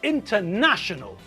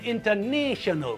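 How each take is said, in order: First: The middle 'na' has the short vowel of 'national'. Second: The middle 'na' has the long vowel of 'nation'. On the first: The speaker calls it right. "we're talking about an international football match" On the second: The speaker calls it wrong. "not an international football match"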